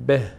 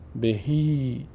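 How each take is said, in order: First: The word ends on a bare h sound. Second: The word ends with an ee vowel sound. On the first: The reciter is stopping here. "این ه ساکن میشه، میشه به" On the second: The reciter continues without stopping. "اگر ... وقف نکنیم و ادامه دادیم، این گونه میشه"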